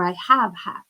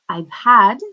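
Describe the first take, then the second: First: I have is said as two full words. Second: I have is contracted into one syllable.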